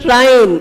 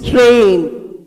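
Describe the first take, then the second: First: The vowel sounds like 'eye'. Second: The vowel sounds like 'ay'. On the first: The speaker calls it wrong. "It's not train" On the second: The speaker calls it right. "it is train"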